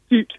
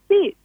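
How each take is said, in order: First: It is said in a flat, discouraged tone. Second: It is said in a warm, encouraging tone. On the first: The child expects the dog not to obey. The speaker calls it wrong. "negative voice" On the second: The child is praising and motivating the dog. The speaker calls it right. "they encourage the dog"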